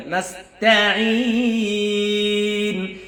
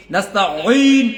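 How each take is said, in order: First: Slow chanted নাস্তাঈন with a long-held final "een"; sung, recite নাস্তাঈন, stretching the ঈ far out; measured Quranic chant, last vowel held long; sung, correct recitation. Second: নাস্তাঈন said short with a heavy, falling "een"; louder, quicker নাস্তাঈন, the ঈ swelling then dropping; mistaken ending. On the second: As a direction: show the faulty, cut-short নাস্তাঈন. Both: Shown as a demonstration. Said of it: "এরকম যেন হয়".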